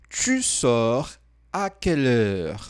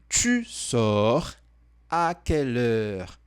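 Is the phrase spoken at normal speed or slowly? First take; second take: normal; slowly. First: The phrase is spoken at normal speed. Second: The phrase is spoken more slowly.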